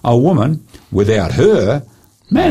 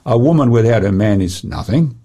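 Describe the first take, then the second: First: There are pauses after 'woman' and 'her'. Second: It is said as one unbroken phrase.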